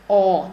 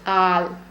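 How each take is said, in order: First: The vowel is said with vertically rounded lips. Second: The vowel is said with flattened, spread lips. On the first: It is the standard pronunciation. The speaker calls it right. "They should go vertical instead of horizontal" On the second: It is an Indian English pronunciation. The speaker calls it wrong. "the moment you say all, your lips flatten a bit"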